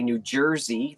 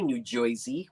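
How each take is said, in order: First: It is said in a plain local accent. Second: It is said in an exaggerated, mocking accent. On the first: This is how locals really say it. The speaker calls it right. "we say New Jersey" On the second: This is how outsiders say it to make fun. The speaker calls it wrong. "where we don't say New Jersey"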